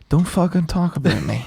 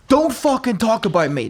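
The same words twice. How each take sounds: First: It is said in a calm, quiet way. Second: It is said in an agitated, hyped-up way.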